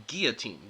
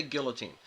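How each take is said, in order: First: Put-on "guillotine" as GEE-uh-teen; demonstrating "guillotine" with a silent L; pronounced without L. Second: Put-on "guillotine" as GILL-uh-teen; demonstrating "guillotine" with an audible L; pronounced with L. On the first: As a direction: drop the L in "guillotine". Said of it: "I would say guillotine". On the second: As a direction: sound the L in "guillotine". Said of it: "he would say guillotine". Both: Shown as a demonstration.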